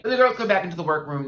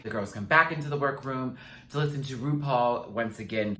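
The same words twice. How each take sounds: First: Energetic announcer. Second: Said in the usual way. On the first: Acted. Recap line, punched take.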